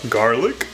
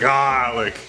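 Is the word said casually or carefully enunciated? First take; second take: enunciated; casual. First: The word is pronounced carefully and crisply. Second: The word is pronounced loosely and relaxed. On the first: "sometimes I feel the need to enunciate things" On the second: "I usually say garlic"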